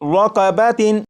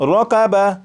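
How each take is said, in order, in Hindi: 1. शब्द 'tin' की आवाज़ से खत्म होता है। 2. शब्द हल्की 'ah' की आवाज़ से खत्म होता है। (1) "वक्फ की हालत में ये रक़बतिन नहीं पढ़ा जाएगा" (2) "वक्फ में इसे पढ़ेंगे"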